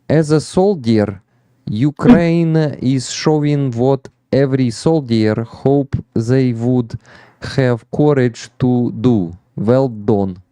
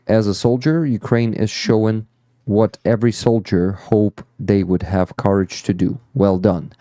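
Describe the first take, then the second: First: It is read with a strong Ukrainian accent. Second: It is read without a Ukrainian accent.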